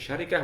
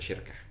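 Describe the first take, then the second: First: The word is said with three syllables. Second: The word is said with two syllables. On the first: "Boleh baca syarikah" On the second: "boleh baca syirkah"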